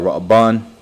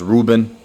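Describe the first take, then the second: First: The name is said with Hebrew-style sounds. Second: The name is said with English-style sounds.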